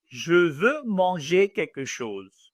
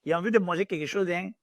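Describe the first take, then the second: First: Slow, careful standard French. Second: Fast, casual Ivorian French. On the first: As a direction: say it in textbook French. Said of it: "In normal French". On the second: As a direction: rattle it off like an Ivorian friend. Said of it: "My Ivorian French to my friend". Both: Shown as a demonstration.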